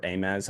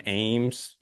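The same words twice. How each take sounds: First: Ames in two syllables, AY-mez; alternate pronunciation. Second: Said in the usual way. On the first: Shown as a demonstration. Host unsure how to say the Iowa town, Ames as AY-mez. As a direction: say Ames as AY-mez, with an extra vowel. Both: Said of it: "I don't know how you say it".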